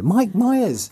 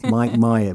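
First: Myers pitched high and loud with a falling end; high mock reveal. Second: Said in the usual way. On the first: Shown as a demonstration. Reveals the surprise actor to co-hosts, high squeal.

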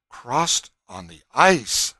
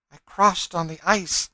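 First: Slow, loud incredulous echo; astonished. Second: High, loud, earnest statement; fugitive woman. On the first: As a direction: repeat it slowly in disbelief, stretching the words. Everyone present echoes her in disbelief. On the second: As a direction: declare it in a raised, woman's pitch. Fugitive woman answers her questioners. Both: A narrator's reading.

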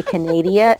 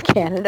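First: Canada said like "ca-NAY-dee-a"; mispronounced Canada. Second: Said in the usual way. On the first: Shown as a demonstration. Speaker teasing people to piss them off, Canada mispronounced as Canadia. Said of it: "I say Canada instead of Canada". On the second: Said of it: "instead of Canada".

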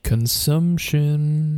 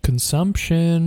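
First: Very slow voiced spooky drawl; drawn out. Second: Slow eerie whisper; spooky whisper. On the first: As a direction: stretch every syllable out. Echoing the word again, voiced. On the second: Pretend. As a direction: drag the word out in a ghostly whisper. Echoing the spooky word.

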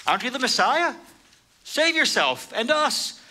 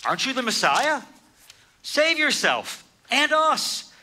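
First: High sneering taunt; scornful criminal jeering; mocking insult. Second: Mocking insult. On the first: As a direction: throw the insult up at him. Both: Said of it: "hurled insults at him".

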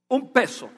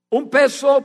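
First: Said in the usual way. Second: Peso said higher and louder; stress on peso. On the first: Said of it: "Un peso, pero no peso cubano". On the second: Shown as a demonstration. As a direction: lean hard on peso. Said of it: "pero no peso cubano".

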